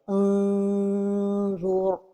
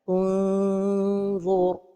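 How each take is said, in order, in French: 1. La langue se détache, ce qui étire le n comme une voyelle. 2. Le n est caché, la langue est proche mais ne touche pas. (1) "La deuxième erreur est de trop éloigner la langue du palais supérieur" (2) "la prononciation correcte est de ne pas trop éloigner la langue du palais supérieur"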